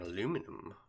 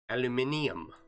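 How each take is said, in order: First: It is said in the speaker's usual pronunciation. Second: It is said in the English pronunciation. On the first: The speaker calls it wrong. "I was told I say it wrong" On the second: The speaker calls it right. "I think is she English?"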